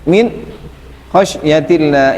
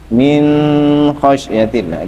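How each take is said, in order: First: There is a stop right after min. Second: The n is held with a nasal hum. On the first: "sakta itu gimana? Berhenti" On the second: "Idhar itu tidak boleh ada gunahnya"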